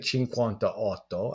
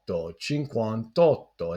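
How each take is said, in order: First: The final vowel of cinquanta is kept. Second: The final vowel of cinquanta is dropped. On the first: The speaker calls it wrong. "I would not say cinquantaotto" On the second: The speaker calls it right. "the sound is kind of mashed together there"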